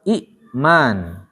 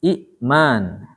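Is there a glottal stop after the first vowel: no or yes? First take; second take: yes; yes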